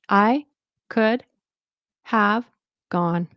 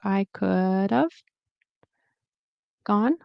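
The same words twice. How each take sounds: First: 'Have' is said fully and clearly. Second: 'Have' is reduced to a weak uh sound.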